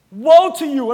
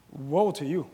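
First: Stern woe. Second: Low, laughing mock curse; playful mock scolding of his wife; joking woe to wife. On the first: Acted. Preacher quoting Jesus' rebuke. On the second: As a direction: tease her with a low chuckling woe. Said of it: "I'm gonna look at my wife".

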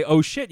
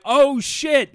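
First: Said in the usual way. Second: High, loud re-enacted yell; "oh shit" yell. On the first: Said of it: "Like, I do my". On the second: Driver about to hit a tree, re-enacted yell. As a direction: holler it like a crash is coming.

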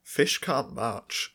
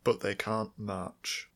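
First: Very slow, each word weighed; slow deadpan. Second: Very slow, falling and firm; slow insistence. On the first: Correcting a friend about fish, slow deadpan. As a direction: state it slowly as gospel. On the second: Insisting to a friend fish cannot march, slow and firm. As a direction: plant each word slowly. Deadpan repetition. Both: Real, not acted.

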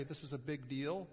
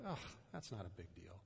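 First: Said in the usual way. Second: Low, quiet, brushing it off; dismissive. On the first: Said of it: "and you try to say". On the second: Retold or imitated. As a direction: wave it away with a groan. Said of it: "they kinda go".

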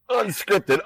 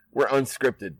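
First: UNSCRIPTED thrown out much higher; emphatic slogan. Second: Said in the usual way. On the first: Pretend. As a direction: proclaim "Unscripted" like a slogan, pitch lifted high. Repeats word as a showy slogan.

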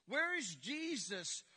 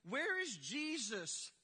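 The two takes are said the same way.

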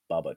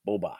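First: Bubba said with an uh sound, BUH-buh; Bubba, short u as in bus, not Boba; mispronounced Bubba. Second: Boba said with a long o, BOH-bah; Boba, long o as in boat, not Bubba; correct Boba. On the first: Retold or imitated. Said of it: "It always sounded like". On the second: Shown as a demonstration. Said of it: "but it, it".

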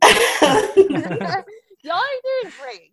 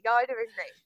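First: Slow, stretched-out praise; slow drawn-out praise. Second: Said in the usual way. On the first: Real, not acted. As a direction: draw out each word warmly. Host praising contestants slowly.

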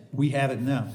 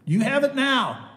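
First: Said in the usual way. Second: "You have it now" pitched high and louder, pointed at the listeners; emphatic you. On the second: Real, not acted. Preacher pressing the promise on the congregation, emphatic and raised. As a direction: drive it home to the congregation.

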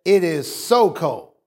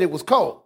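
First: "so" held longer before "cold"; stress on "so". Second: Said in the usual way. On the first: Shown as a demonstration. Preacher contrasts with simply cold, stress on "so". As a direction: lean on "so" to show how cold. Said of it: "you wanted to put an emphasis". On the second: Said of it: "You could have just said".

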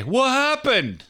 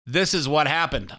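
First: High, slow drawn-out what happened; mocking whine. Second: Said in the usual way. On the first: Host mocking the book title, high and drawn out. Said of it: "I say". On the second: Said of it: "they might say".

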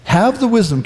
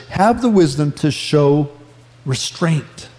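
First: Said in the usual way. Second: "have the wisdom to show restraint" slowed and dropped low, "restraint" nearly breathed; emphatic reread. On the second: Shown as a demonstration. Pastor rereading the verse so the congregation catches it, slow and pointed. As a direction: lean on it slowly so they catch it. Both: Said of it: "catch this".

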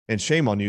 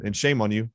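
First: "shame" leaned on, a mild retold rebuke; stress on shame. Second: "shame" pressed again, mild retold rebuke; stress on shame. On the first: Retelling how he scolded the doctor, stressing "shame". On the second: Repeating his rebuke to the doctor, stressing "shame". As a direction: repeat it, hitting "shame" a touch harder. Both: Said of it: "This is what I said".

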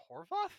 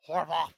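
First: HORVATH lifted high as a question. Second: HORVATH louder, at usual pitch; emphatic. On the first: Host unsure of a director's name, questioning. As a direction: query "Horvath" with a sharply rising tune. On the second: Host settling on a director's name, emphatic. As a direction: punch out "Horvath" as a firm statement. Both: Real, not acted.

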